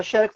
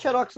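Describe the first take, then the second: First: "xerox" said XÉ-rox; stress on first syllable. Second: "xerox" said xe-RÓX; stress on last syllable. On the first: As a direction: put the weight on XE in "xerox". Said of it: "tem acento". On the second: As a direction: put the weight on ROX in "xerox". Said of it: "não tem". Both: Shown as a demonstration.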